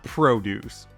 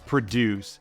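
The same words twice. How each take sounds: First: The stress is on the first syllable. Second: The stress is on the second syllable. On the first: It means farm vegetables. The speaker calls it wrong. "not produce" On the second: It means making or getting things done. The speaker calls it right. "It's produce"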